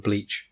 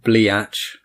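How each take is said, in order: First: Said in the usual way. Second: "Bleach" stretched into two syllables, "blee-atch"; punning pronunciation. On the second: Shown as a demonstration. Explaining a teenage nickname to a friend, "Bleach" punned as "blee-atch". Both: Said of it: "instead of Beach and Bleach".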